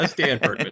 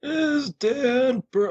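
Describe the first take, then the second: First: Said in the usual way. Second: Put-on slow, high, creaky old man. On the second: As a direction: drag it out like a feeble old man. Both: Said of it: "that's my old man voice".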